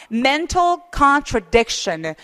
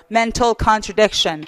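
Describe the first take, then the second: First: Slow, stress on "mental" and "con-tra-DIC-tion"; "contradiction" with the beat on "dic", said very slowly; stress before -tion. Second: Slow demo: "contradiction" with "dic" stressed and the other vowels reduced; weak vowels swallowed, "dic" punched; slow model read, stress on "dic". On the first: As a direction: lean on the syllable before "션". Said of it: "션이 있을 때는 바로 앞에 강세를 주셔야 돼요". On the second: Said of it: "강세 주지 않는 모음들은 어, 발음이 나야 돼요". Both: Shown as a demonstration.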